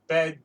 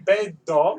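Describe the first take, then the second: First: The word ends on the final consonant sound. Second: The word ends with an added vowel sound. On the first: "stop after the D. Bed, just don't say o" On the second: "say bedo"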